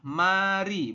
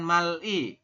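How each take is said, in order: First: The middle consonant is a flapped R sound. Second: The middle consonant is an L sound. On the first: The speaker calls it right. "pelafalannya adalah mari" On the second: The speaker calls it wrong. "bukan mali ya"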